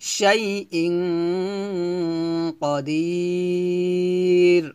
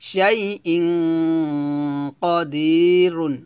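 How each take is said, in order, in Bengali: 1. স্বরটি টেনে পড়া হয়, আর শেষ হয় সাধারণ 'র' দিয়ে। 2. শেষ শব্দটি একটি 'un' ধ্বনি দিয়ে শেষ হয়।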